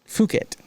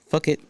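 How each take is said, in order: First: It does not sound like 'fuck it'. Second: It sounds like the English words 'fuck it'. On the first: "It was probably Phuket" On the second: "That's the American pronunciation"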